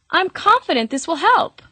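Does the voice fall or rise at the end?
rise. The voice rises at the end, like a question. The speaker sounds unsure of what they are saying. "interpreted as if they're asking a question"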